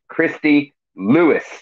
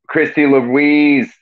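First: The second name is said like Lewis. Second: The second name is said like Louise. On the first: The speaker calls it right. "Lewis is the way that is more proper to say" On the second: The speaker calls it wrong. "I say Louise all the time"

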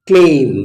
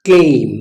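The two takes are said the same way.

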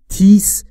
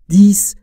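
First: It begins with a hard 't' sound. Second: It begins with a soft voiced 'th' sound. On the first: The speaker calls it wrong. "تیس یا هر چیز دیگری نیست" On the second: The speaker calls it right. "تلفظش دیس"

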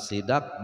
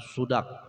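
First: The first vowel is an i sound. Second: The first vowel is a u sound. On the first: "bukan sidak" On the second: "bukan sudak"

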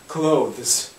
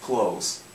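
First: The th sound is clearly pronounced before the z. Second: The th sound is dropped before the z. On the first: "А потом еще и z" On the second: "могут опять же сократить, ну то есть упростить"

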